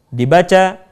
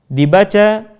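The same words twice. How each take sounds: Both takes have the same delivery.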